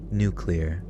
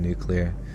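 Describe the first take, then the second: First: The word is said carefully, each syllable enunciated. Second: The word is said loosely, with blurred syllables. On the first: The speaker calls it right. "I have to like very clearly enunciate nuclear" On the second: The speaker calls it wrong. "I say nuclear instead of nuclear. ... that one I get shit for"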